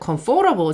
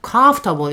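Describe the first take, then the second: First: The stress falls on a later syllable. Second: The stress falls on the first syllable. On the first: The speaker calls it wrong. "자꾸 뒤에다가 주시거든요. comfortable 자꾸 이러시는데" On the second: The speaker calls it right. "앞에 강세 있습니다"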